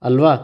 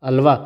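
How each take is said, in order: The two takes are said the same way.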